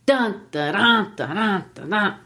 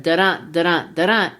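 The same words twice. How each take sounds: First: Strong first beat on "Dun", weaker "dun" after; reversed heartbeat. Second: "da-dun" stressed on the second syllable; weak "da", strong "dun", repeated; iambic heartbeat. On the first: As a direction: hit the opening "Dun", trochaic strong-weak pulse. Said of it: "it's the reverse of the human heart". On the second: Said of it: "So instead of". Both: Shown as a demonstration.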